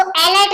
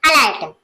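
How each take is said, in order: First: "अलर्ट" with an initial e as in "ell"; mispronunciation. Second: "अलर्ट" with a short uh first vowel; lower-pitched "अलर्ट", said uh-LART; correct pronunciation. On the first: Teacher shows how not to read it, "अलर्ट" misread as AL-ert. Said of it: "नहीं पढ़ते हैं". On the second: Teacher answers how it is read, "अलर्ट" starting on a short uh. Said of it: "इस तरह से". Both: Shown as a demonstration.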